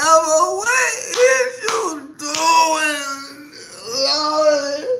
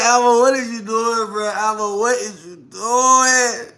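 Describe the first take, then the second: First: Much higher, very slow wailing cry; anguished outcry. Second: High, slow incredulous question; disbelief. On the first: Retelling the moment she lost it, wailing. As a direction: wail the question like it's unbearable. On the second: Retelling her reaction to him scratching, incredulous. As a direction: stretch it out in disbelief. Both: Retold or imitated.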